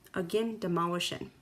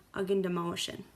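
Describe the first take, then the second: No difference in how they are said.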